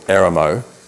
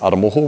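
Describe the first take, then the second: First: The name is said in a shortened anglicized form. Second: The name is said in full Māori form. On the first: The speaker calls it wrong. "the default is" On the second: The speaker calls it right. "a classic one is"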